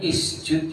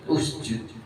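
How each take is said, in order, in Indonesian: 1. Kata ini diawali dengan vokal i. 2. Kata ini diawali dengan vokal u. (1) "Enggak boleh isjud" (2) "tapi usjud"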